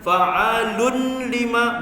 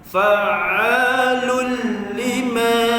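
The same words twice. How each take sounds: First: A clear n sound is heard before lima. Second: The n merges fully into the l sound. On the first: The speaker calls it wrong. "jangan fa'alun lima, bunyi juga nun" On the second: The speaker calls it right. "terus masuk lam"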